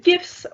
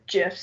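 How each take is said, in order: First: "gifs" with a hard g, as in gift; "gifs" opening on the g of "go". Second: "gifs" with a soft g, like "jifs"; "gifs" opening on the j of "jam". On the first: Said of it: "I say gifs 'cause". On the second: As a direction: say "gifs" starting with a j sound. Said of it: "gif is the peanut butter". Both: Shown as a demonstration.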